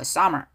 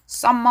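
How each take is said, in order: First: The m sound is short and single. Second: The m sound is held long, doubled. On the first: The speaker calls it right. "발음상으로는 m이 하나예요" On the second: The speaker calls it wrong. "summer 아니고"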